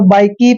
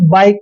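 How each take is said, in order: First: The word ends with an added ee vowel. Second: The word ends on a plain k sound. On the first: The speaker calls it wrong. "कभी भी हम ना तो बाइक की पढ़ते हैं" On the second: The speaker calls it right. "बाइक पढ़ते हैं"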